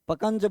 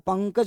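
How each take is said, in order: First: The nasal sound comes after the second syllable. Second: The nasal sound comes after the first syllable. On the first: The speaker calls it wrong. "फिर क्या बनेगा? पकंज बनेगा।" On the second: The speaker calls it right. "पर मैं तो पंकज बोल रहा हूं ना।"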